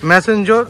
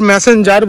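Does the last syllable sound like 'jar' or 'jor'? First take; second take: jor; jar. First: The last syllable ends in a 'jor' sound. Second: The last syllable ends in a 'jar' sound. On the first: The speaker calls it right. "এটা actually উচ্চারণ হবে ম্যাসেঞ্জোর" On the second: The speaker calls it wrong. "আমরা বারবার ম্যাসেঞ্জার বলছি"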